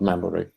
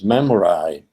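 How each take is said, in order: First: The final vowel is the ordinary everyday one. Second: The final vowel is changed to fit a rhyme. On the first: The speaker calls it wrong. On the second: The speaker calls it right.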